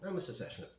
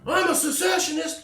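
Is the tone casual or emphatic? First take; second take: casual; emphatic. First: It is said lightly and offhandedly, like small talk. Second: It is said loudly and with forceful emphasis. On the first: Holding this view is ordinary and nothing special. The speaker calls it right. "Just like, yeah, my name's [name]. Yeah, ... Whatever" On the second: Holding this view is a dramatic, defiant statement. The speaker calls it wrong.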